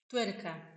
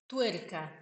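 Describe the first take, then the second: No difference in how they are said.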